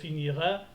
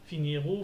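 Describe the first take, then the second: First: An extra a vowel follows the final r. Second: An extra ou vowel follows the final r. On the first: "J'ai pas dit" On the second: "J'ai pas dit"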